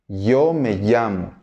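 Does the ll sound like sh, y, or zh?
y. The ll is said like an English y.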